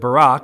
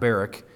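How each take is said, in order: First: The name has the Hebrew pronunciation. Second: The name has an anglicized, non-Hebrew pronunciation. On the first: The speaker calls it right. "That is how you say it in the Hebrew" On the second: The speaker calls it wrong. "Not Barak"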